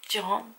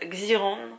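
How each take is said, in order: First: The name begins with a 'j' sound. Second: The name is pronounced the French way. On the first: "je crois que c'est Ji" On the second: "je vais le prononcer à la française"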